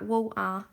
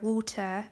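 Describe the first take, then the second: First: WATER with the T dropped to a glottal stop; Cockney glottal T. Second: WATER with a clearly sounded T; pronounced T. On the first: Londoner showing how she slips up, "water" with no T. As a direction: say "water" London-style, swallowing the T. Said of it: "so quick to say something like". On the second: Londoner showing the well-spoken way, "water" with its T pronounced. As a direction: say "water" carefully, articulating the T. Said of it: "remind myself to pronounce my T's". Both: Shown as a demonstration.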